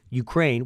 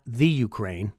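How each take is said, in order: First: Said in the usual way. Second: "the" said as a full "thee" before Ukraine; stress on THE. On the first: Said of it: "which is not the Ukraine". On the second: Shown as a demonstration. Host corrects a common mistake, stressing "the" in "the Ukraine". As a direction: lean on the word "the". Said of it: "Ukraine doesn't have the the".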